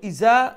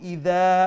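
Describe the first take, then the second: First: The middle consonant is a hard z sound. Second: The middle consonant is a soft d sound. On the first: "ইজা যদি হয় তইলে যা উচ্চারণ করলাম" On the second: "ইদা তইলে দাল উচ্চারণ করলাম"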